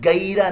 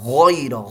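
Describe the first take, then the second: First: It begins with a hard g sound. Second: It begins with a throaty gh sound. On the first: The speaker calls it wrong. "ये गैरा नहीं है" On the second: The speaker calls it right. "गैन की आवाज हलक के ऊपर वाले हिस्से से"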